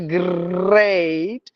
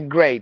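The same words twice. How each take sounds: First: The R sound is drawn out and rolled. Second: The R sound is short, one beat. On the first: The speaker calls it wrong. "I don't say great" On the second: The speaker calls it right. "I say great"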